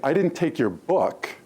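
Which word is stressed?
book. The stress is on the word book.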